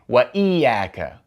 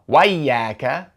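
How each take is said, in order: First: A glottal stop separates the two words. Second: The words run together without a glottal stop. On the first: The hamza is treated as a cutting one. The speaker calls it right. "we say Waiyaka. We have to pronounce that Hamza" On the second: The hamza is treated as a connecting one. The speaker calls it wrong. "we don't say Wayyaka"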